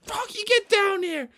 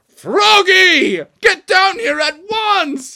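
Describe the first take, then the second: First: Very high, hissed squeal; strained angry order. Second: High, very loud drawn-out yell; furious dad shout. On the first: Dad grabs Froggy on stage, strained furious order. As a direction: force it out through gritted teeth. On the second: Dad orders Froggy off the stage, furious shout. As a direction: holler the order with full force. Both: Acted.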